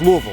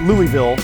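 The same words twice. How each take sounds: First: The name is swallowed into fewer, blurred syllables. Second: The name is said fully, each syllable clear. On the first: The speaker calls it right. "You got to kind of swallow it when you say it" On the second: The speaker calls it wrong. "It's not Louisville"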